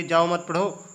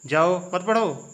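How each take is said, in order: First: Said in the usual way. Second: जाओ drawn out and set apart, then मत पढ़ो together; slow, break straight after जाओ; pause after जाओ. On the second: Shown as a demonstration. Teacher showing where the comma falls, pause after जाओ. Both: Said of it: "इसमें आप लोग कामा नहीं लगाएंगे".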